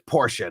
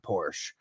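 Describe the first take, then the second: First: The final E is pronounced as an extra syllable. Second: The final E is silent, giving one syllable. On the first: The speaker calls it right. "It's Porsche, ... at the E. It was always meant to not be silent" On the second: The speaker calls it wrong. "not Porsche"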